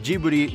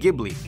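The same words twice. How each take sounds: First: The name is said with Japanese pronunciation. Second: The name is said with Italian pronunciation. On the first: "in Japanese pronunciation, Ghibli turned into Ghibli" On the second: "The Italians pronounced it Ghibli"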